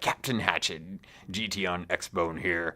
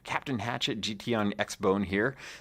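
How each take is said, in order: First: It is read in a put-on pirate voice. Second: It is read in his normal voice.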